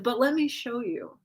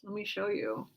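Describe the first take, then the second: First: Said in the usual way. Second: "Let me show you" dropped to a soft, sinister hush; a horror villain quietly beckoning; creepy whisper. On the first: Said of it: "And I'll be like". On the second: Retold or imitated. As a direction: lean in and menace them quietly. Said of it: "in the creepiest whisper ever".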